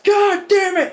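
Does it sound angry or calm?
angry. It is said angrily and loudly.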